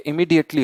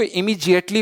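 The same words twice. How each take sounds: First: इमीडिएटली with a hard retroflex ड, not जि; इमीडिएटली clearly with ड in the middle; correct pronunciation. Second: The common mistake, इमीडिएटली with जि; इमीडिएटली said the wrong way, जि not डि; wrong pronunciation. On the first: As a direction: say इमीडिएटली as इमी-डि-एटली, crisp ड. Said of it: "ये इमीडिएटली होता है". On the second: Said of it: "जिएटली नहीं होता". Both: Shown as a demonstration.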